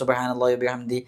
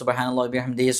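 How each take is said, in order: First: The phrase ends without 'hi', before a stop. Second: The phrase ends with 'hi', linked to what follows. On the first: The reciter stops after this phrase. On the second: The recitation continues without a breath.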